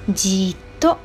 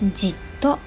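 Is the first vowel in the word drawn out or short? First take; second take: drawn out; short. First: The first vowel is drawn out long. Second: The first vowel is short. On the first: It stresses the fixed stare or keeping still. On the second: It describes a fixed stare or keeping still.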